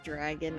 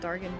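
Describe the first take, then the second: First: The R comes before the first vowel: dragon. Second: The R comes after the first vowel: dargan.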